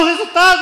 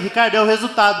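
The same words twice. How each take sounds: First: High-pitched disbelieving question; incredulous echo. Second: Said in the usual way. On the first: Acted. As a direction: echo it high, unable to believe it.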